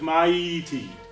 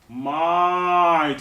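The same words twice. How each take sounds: First: The first vowel of the diphthong is cut short. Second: The first vowel of the diphthong is held long. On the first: The speaker calls it wrong. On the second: The speaker calls it right. "must always get the longest duration"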